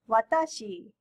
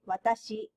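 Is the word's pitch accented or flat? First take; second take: accented; flat. First: The pitch rises and falls within the word. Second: The pitch stays level across the word. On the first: The speaker calls it wrong. "So not watashi" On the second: The speaker calls it right. "you should say watashi"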